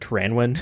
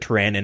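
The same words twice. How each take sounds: First: The last syllable is said with a W sound. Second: The last syllable is said without a W sound. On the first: This is how the speaker has always said it. "I've always pronounced it Tyranwin with the W" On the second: This is how someone else says it. "he pronounces it Tyranwin"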